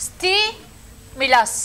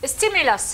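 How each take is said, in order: First: Stimulus drawn out very slowly, syllable by syllable; slow model word. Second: Said in the usual way. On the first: Shown as a demonstration. Teacher models the word for students, drawn out. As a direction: stretch stimulus out so students hear each part. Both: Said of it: "الكلمة المشهورة هذه".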